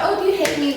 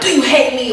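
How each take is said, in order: First: It sounds light and playful. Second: It sounds earnest and serious.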